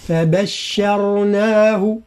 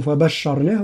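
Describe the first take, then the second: First: "فبشرناه" very slowly, a light ب and only the ر thick; light ب, heavy ر only. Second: "فبشرناه" with the ب and ش made heavy; the mistaken thick ب in "فبشرناه"; wrong heavy ب. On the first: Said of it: "هكذا". ("فبشرناه" بترقيق الباء وتفخيم الراء) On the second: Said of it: "لا نقول". ("فبشرناه" بتفخيم الباء خطأ) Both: Shown as a demonstration.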